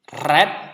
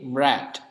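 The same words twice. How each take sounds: First: The r is rolled, Indonesian style. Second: The r is a smooth English r. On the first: The speaker calls it wrong. "kalau di bahasa Indonesia kita baca r ... bukan red" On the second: The speaker calls it right. "di bahasa Inggris dibaca er ... tapi red"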